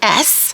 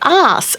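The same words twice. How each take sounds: First: It is the American 'ass' with a short vowel. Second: It is the Australian 'arse' with a long vowel.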